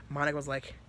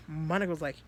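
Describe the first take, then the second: No difference in how they are said.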